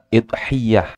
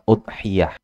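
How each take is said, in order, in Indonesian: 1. Diawali dengan i dan y-nya digandakan. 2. Diawali dengan u dan y-nya tunggal. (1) "hamzahnya di kasroh" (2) "tanpa ya di tasdid"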